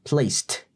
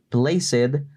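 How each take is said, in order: First: The ending is a dry T sound. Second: The ending is not a dry T sound. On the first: The speaker calls it right. "Respetemos la regla de la pronunciación T" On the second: The speaker calls it wrong. "Cuidado con decir placed"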